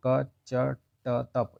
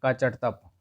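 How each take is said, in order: First: Very slow recitation. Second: Said in the usual way. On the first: Shown as a demonstration.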